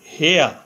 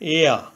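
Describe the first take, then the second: First: The word begins with an h sound. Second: The word begins directly with a vowel. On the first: The speaker calls it wrong. "প্রথমে এইচ ধরে উচ্চারণ করলে হয় হেয়া" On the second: The speaker calls it right. "এইচ এর উচ্চারণ না হয়ে ভাওয়েল ই থেকে উচ্চারণ হয়েছে"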